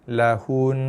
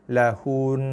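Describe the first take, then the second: First: The word ends on a held, nasal n. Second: The word ends on a held, nasal n.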